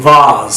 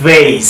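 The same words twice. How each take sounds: First: ভাজ as "vahz"; long open "ah" in ভাজ; British "vahz" for vase, ভাজ; British pronunciation. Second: ভেজ as "vayce"; "ay" vowel in ভেজ; American "vayce" for vase, ভেজ; American pronunciation. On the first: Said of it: "কীভাবে ব্রিটিশে sound করে". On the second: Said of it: "কীভাবে আমেরিকানরা sound করে". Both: Shown as a demonstration.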